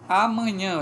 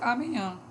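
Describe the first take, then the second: First: All the 'a' vowels are kept. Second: One 'a' vowel is changed to another vowel. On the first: This is the standard form. The speaker calls it right. "era muito A aqui" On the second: This is a nonstandard form some people use. The speaker calls it wrong. "algumas pessoas dizem amanhã"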